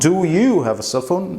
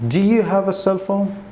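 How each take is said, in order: First: Do and you are said as separate words. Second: Do and you are run together as one. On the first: The speaker calls it wrong. "It's not" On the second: The speaker calls it right. "said together as one word"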